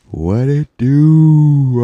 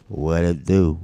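First: Loud, high, stretched-out catchphrase; drawn-out holler. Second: Said in the usual way. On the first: Pretend. Podcaster repeating his catchphrase to listeners, long playful holler.

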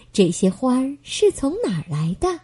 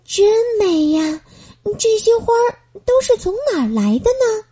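First: Said in the usual way. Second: Higher, awed voice stressing 都; a girl stunned by a field of flowers; amazed wonder. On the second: Acted. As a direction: marvel at all the flowers. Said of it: "美宝深深地吸了一口气".

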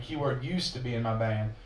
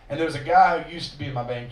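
First: "used" leaned on, the rest softer and lower; stress on used. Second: Said in the usual way. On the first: Shown as a demonstration. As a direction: hit "used" to make the point pointed.

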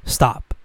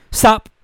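First: Said in the usual way. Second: Sudden high "Stop". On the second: Shown as a demonstration. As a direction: snap "Stop" up high in pitch.

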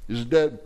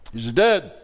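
First: DEAD pressed with a falling tune; emphatic question. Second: "dead" punched louder with a firm fall; louder repeat. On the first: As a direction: challenge them on "dead", landing hard. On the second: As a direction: hammer the repeat on "dead" to shake them. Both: Shown as a demonstration. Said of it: "Is your faith dead?".

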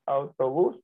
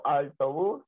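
First: "autobús" said properly as "au-to-bús", no L; correct autobús. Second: "autobús" said as "altobús", with an L before the t; mispronounced autobús. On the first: Correcting toward the right "autobús" for someone who says it wrong. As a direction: clean "autobús" with a clear au diphthong. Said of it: "hasta que le digo autobús". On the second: Imitating people who say "autobús" as "altobús". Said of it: "hay gente que dice autobús". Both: Shown as a demonstration.

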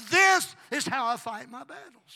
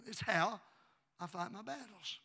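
First: Very loud, high, drawn-out declaration; triumphant preaching shout. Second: Said in the usual way. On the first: Real, not acted. Preacher declaring victory to the church, shouting. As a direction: shout it slowly, hitting THIS hard.

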